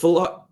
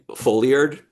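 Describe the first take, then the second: First: The word gets its standard spoken pronunciation. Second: The word gets a misread pronunciation from print. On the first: This is how the term is actually pronounced. The speaker calls it right. "It's foulard" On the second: This is how it was guessed from reading catalogs. The speaker calls it wrong. "I used to say like foliard"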